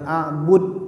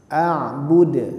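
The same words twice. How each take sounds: First: The final consonant is cut off flat. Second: The final consonant is released with a bounce. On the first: The speaker calls it wrong. "jangan a'bud" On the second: The speaker calls it right. "karena ini huruf qalqalah harus dipantulkan"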